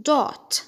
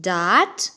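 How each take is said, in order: First: "dot" with a rounded O; higher, round-vowelled "dot"; British DOT. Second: "dot" with an open ah; American DOT. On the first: Teacher repeating British "dot", rounded-O pronunciation. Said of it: "في البريتش أكسنت هتتقال". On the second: Teacher repeating American "dot", open-vowel pronunciation. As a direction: say "dot" as "daht". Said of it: "في الأمريكان أكسنت هتتقال". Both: Shown as a demonstration.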